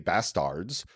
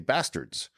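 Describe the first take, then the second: First: The second vowel sounds like a clear A. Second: The second vowel sounds like an E. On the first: The speaker calls it wrong. "people don't say bastards" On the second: The speaker calls it right. "They say bastards, which sounds like an E"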